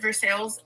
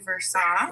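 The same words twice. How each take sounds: First: The name is said the way locals say it. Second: The name is said the way outsiders say it. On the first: The speaker is from the area. "but we call it Versailles" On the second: The speaker is not from the area. "everyone who's not from here is like it's actually Versailles"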